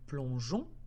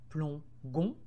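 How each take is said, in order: First: The g is soft, like the j sound. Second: The g is hard, like in gui. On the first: The speaker calls it right. "j'ai été obligée de rajouter un E pour faire le son J" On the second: The speaker calls it wrong. "Si je n'avais pas mis la lettre E, je dirais alors plongon"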